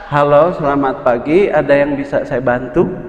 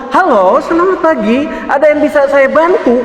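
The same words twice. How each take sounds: First: It is said with less energy. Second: It is said loudly and energetically.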